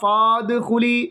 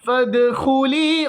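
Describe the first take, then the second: First: The first vowel is drawn out long. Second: The first vowel is short and clipped. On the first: The speaker calls it wrong. "ആ അലിഫിനെ ഉച്ചരിക്കരുത്" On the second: The speaker calls it right. "ഫായിൽ നിന്നും നേരെ ദാലിലേക്ക്"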